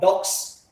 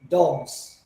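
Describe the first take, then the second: First: The word ends with a hissing s sound. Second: The word ends with a buzzing z sound. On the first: The speaker calls it wrong. "instead of dogs" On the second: The speaker calls it right. "it sounds like zzz, like see dogs"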